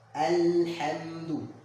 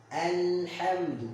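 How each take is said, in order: First: The opening vowel 'a' is clearly pronounced. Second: The opening vowel 'a' is clearly pronounced.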